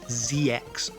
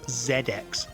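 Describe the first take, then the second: First: The letter Z is said the American way. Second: The letter Z is said the British way. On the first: The speaker calls it wrong. "None of this Z X nonsense" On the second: The speaker calls it right. "it is pronounced Z X Spectrum because it's British"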